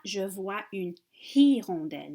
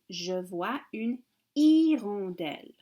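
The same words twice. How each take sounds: First: The h at the start of hirondelle is sounded. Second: The h at the start of hirondelle is silent. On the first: The speaker calls it wrong. "ce n'est pas" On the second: The speaker calls it right. "C'est silencieux le H en français"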